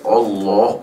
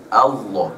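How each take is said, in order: First: The first vowel sounds like an 'o'. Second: The first vowel sounds like an 'a'. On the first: The speaker calls it wrong. "banyak yang baca Allah, oh Hamzah di atas O" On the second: The speaker calls it right. "So A Allah. Dia tebal tapi A tu tetap A"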